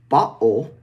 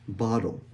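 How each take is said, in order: First: The T is replaced by a catch in the throat. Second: The T is a quick tap like a D. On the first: "where we use a glottal stop" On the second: "It kind of sounds like a D, but it's actually the flapped T"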